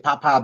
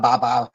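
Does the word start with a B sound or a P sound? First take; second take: P sound; B sound. First: The word begins with a P sound. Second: The word begins with a B sound. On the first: "some people pronounce it the P like a B" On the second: "pronounce it the P like a B"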